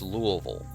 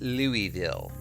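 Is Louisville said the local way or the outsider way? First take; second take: local way; outsider way. First: The city name is said the local way. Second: The city name is said the outsider way. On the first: The speaker sounds like a resident. The speaker calls it right. "It's Louisville" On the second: The speaker is not from there. The speaker calls it wrong. "is not pronounced Louisville"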